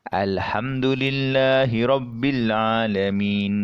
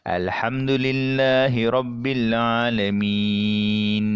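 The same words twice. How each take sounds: First: The last long vowel is held two beats. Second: The last long vowel is held six beats. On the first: "kita baca dengan dua harakat" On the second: "kita baca dengan enam harakat"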